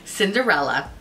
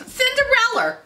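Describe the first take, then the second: First: Said in the usual way. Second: "Cinderella" high, with an R on the end; exaggerated mispronunciation. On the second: Real, not acted. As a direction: laugh and hit an r-ending on "Cinderella". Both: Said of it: "Who the fuck am I?".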